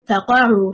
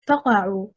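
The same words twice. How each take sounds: First: The stress is on the second syllable. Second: The stress is on the first syllable. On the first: It is two words meaning then fall down. The speaker calls it right. "stressing حركة القاف" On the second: It becomes one word meaning pop or crack. The speaker calls it wrong. "stressing on the first حركة, حركة الفاء"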